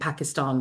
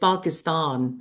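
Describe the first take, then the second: First: The a vowels are short and flat. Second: The a vowels are long and broad, like 'ar'. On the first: The speaker calls it wrong. "it's not how you pronounce it" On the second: The speaker calls it right. "it's all the as are R's"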